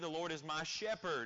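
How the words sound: The stress falls on the word 'shepherd'. God is the one who cares for and guides us. "we place an emphasis on the shepherding of God in our lives"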